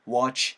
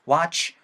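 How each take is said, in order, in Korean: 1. w 뒤의 모음은 "wo"처럼 소리 나요. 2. w 뒤의 모음은 "wa"처럼 소리 나요. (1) "워 사운드 상관없습니다" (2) "W-A 사운드는 와 사운드"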